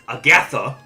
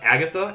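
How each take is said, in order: First: The name is pronounced with a sputtering, duck-like sound. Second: The name is pronounced in the ordinary way. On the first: The speaker calls it wrong. "if you mispronounce her name, ... it kind of sounds like Daffy Duck having a stroke" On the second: The speaker calls it right. "instead of Agatha"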